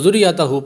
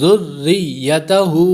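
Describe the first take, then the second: First: The r is single and the word breaks apart. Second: The r is doubled and the sounds join smoothly. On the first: The speaker calls it wrong. "बहुत लोग गलती करते हैं" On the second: The speaker calls it right. "वाज़े तौर पर महसूस हो कि मिलाया जा रहा है"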